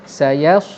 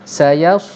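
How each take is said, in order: Both takes have the same delivery.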